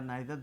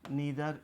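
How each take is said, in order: First: The first vowel sounds like 'eye'. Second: The first vowel sounds like 'ee'. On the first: "नीदर या नाइदर दोनों pronunciation both are equally correct" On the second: "नीदर या नाइदर दोनों pronunciation both are equally correct"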